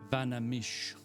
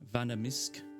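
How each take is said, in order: First: The name ends without an sk sound. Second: The name ends with an sk sound. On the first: "I say it like Vanamish" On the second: "maybe it was Misk"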